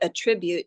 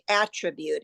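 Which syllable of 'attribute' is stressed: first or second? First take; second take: second; first. First: The stress is on the second syllable. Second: The stress is on the first syllable. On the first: It is used as a verb. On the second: It is used as a noun.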